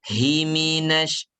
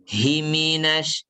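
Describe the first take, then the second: Both takes have the same delivery.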